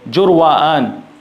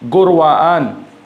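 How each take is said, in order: First: The name begins with a J sound. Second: The name begins with a hard G sound. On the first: This is how Arabic speakers say the name. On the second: This is the local Persian form of the name.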